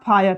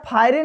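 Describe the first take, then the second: First: It ends on the 'r' with no vowel. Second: It ends with an extra 'e' vowel sound. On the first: The speaker calls it right. "R ई क्या होगा silent रहेगा" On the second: The speaker calls it wrong. "तो यहाँ फायरे नहीं पड़ेंगे"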